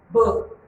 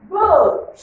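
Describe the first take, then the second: First: Said in the usual way. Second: "boat" sung out high and loud; model word. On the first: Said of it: "Look at the transcription here". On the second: Shown as a demonstration. Teacher modelling a word for the class, high and loud. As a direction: lift "boat" up high and loud for pupils to copy. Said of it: "Can you pronounce that word?".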